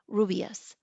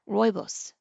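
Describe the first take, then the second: First: The first syllable sounds like 'roo'. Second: The first syllable sounds like 'roy'. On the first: The speaker calls it wrong. "she was pronouncing it incorrectly" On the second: The speaker calls it right. "It is pronounced Roibos"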